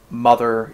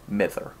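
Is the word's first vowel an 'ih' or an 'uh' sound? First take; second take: uh; ih. First: The first vowel is an 'uh' sound. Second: The first vowel is an 'ih' sound. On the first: The speaker calls it wrong. "that's not mother" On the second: The speaker calls it right. "it's Mither, which is the word mother. It's just a dialectal variant"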